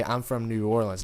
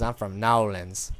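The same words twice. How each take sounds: First: Said in the usual way. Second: "Nolens" said as one slurred word, NO-lens; New Orleans drawl on Nolens. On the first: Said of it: "he doesn't say". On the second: Retold or imitated. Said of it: "No, he says".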